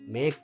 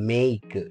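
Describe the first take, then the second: First: The vowel is a plain, steady e. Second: The vowel glides from e to i. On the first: The speaker calls it wrong. "మేక్ కాదు" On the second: The speaker calls it right. "ఏ పలుకుతూ ఉంటుంది"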